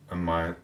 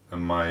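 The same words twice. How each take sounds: The two takes are said the same way.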